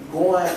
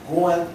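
No difference in how they are said.

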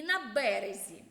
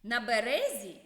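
First: «березі» with stress on ре: бе-РЕ-зі; stress on березі, middle syllable. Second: «березі» with stress on бе: БЕ-ре-зі; stress on березі, first syllable. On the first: (наголос на другий склад: «беРЕзі») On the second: (наголос на перший склад: «БЕрезі») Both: Shown as a demonstration. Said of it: "Зверніть увагу на звучання слів".

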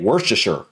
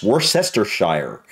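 First: Worcestershire shortened to WURST-uh-shur; attempted short pronunciation. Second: Worcestershire slow and lower, wur-SESS-ter-SHIRE; spelling pronunciation. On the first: Reactor struggling to say the sauce's name, attempted short pronunciation. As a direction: squash Worcestershire into three syllables, WURST-uh-shur. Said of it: "I can't even say it". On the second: Reactor repeating how the word looks, spelling pronunciation. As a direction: read Worcestershire as written, every syllable out, ending like shire. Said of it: "is how it looks". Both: Shown as a demonstration.

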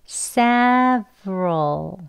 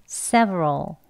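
First: Several drawn out very slowly, syllable by syllable; slow demonstration. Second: Several joined up, quicker and lower; a bit faster. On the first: Teacher sounding out several for learners, very slowly. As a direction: stretch several into sev and roll. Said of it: "천천히 해볼게요". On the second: Teacher saying several for learners, a bit faster. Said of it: "조금 또 빨리 한번 해볼게요". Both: Shown as a demonstration.

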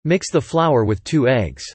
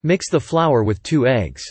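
Both takes have the same delivery.

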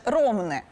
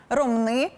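First: Ромни with the stress on the first syllable, РОм-. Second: Ромни with the stress on the final syllable, -нИ; stress on last syllable. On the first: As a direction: hit the start of Ромни. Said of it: "єдино правильний варіант". (наголос на першому складі: Ромни) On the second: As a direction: hit the end of Ромни. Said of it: "на останній склад". (наголос на останньому складі: Ромни) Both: Shown as a demonstration.

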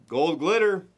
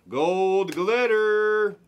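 First: Said in the usual way. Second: High, very slow stretch of Gold glitter; drawn-out excited card call; slow hyped call. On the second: Real, not acted. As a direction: savour each syllable of glitter like a big pull.

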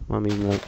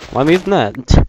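First: Said in the usual way. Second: Higher, louder incredulous yell; exasperated shout. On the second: Real, not acted. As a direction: shout it in disbelief. Repeats louder.

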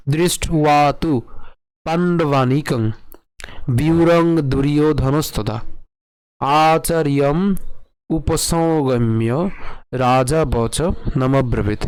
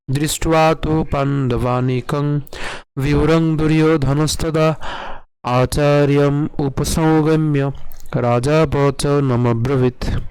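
First: Slow verse, phrase by phrase with pauses; ধীরে ভেঙে পাঠ; broken-down recitation. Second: Slow melodic sloka chant, vowels held; chanted, intone the verse like a hymn; chanted, সুর করে শ্লোক পাঠ; chanted in tune. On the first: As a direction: read each part slowly for learners to copy. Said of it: "আরেকটু ভেঙে পড়ি আপনাদের উচ্চারণ সুবিধার জন্য". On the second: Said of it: "আমি যদি সুর করে করি". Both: Shown as a demonstration.

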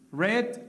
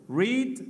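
First: "read" with a short e, like "red"; past-tense "read". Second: "read" with a long ee, like "reed"; present-tense "read". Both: Shown as a demonstration. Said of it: "lo que varía es la pronunciación".

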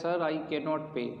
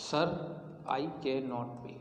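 First: Slow, even reading of the example. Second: Very slow, softer, with a pause after Sir; teacher dictating to students; dictating word by word. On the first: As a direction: read it out slowly for the class. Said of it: "teacher reads example sentence". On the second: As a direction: dictate it piece by piece so they can write. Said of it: "teacher dictates sentence with pauses". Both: Shown as a demonstration.

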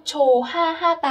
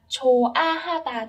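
First: "chồ ha ha tà" with an H linked onto the second syllable; nối âm sai. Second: "chồ a ha tà" with a bare A, no H linked on; không nối âm. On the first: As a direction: say "chồ ha ha tà", sounding an extra h before the first a. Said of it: "sẽ không có nối âm". (đọc "chồ ha ha tà", nối thêm âm h vào âm tiết thứ hai) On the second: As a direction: say "chồ a ha tà", leaving the second syllable starting on the vowel. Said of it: "chỉ đọc là chồ a ha tà thôi". (đọc "chồ a ha tà", không nối âm h vào "a") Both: Shown as a demonstration.

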